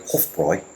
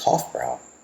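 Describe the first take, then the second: First: The name is said with German-style sounds. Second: The name is said with English-style sounds.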